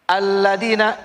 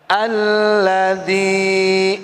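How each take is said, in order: First: The vowel in 'dzi' is short. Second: The vowel in 'dzi' is held long. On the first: The speaker calls it wrong. "Jangan lagi Bapak baca begini. Alladzina, jangan" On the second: The speaker calls it right. "Tapi dibaca panjang"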